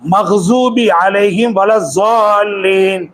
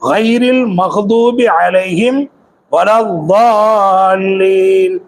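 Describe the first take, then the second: First: The letter is said as a z. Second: The letter is said as a heavy d. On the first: The speaker calls it wrong. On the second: The speaker calls it right.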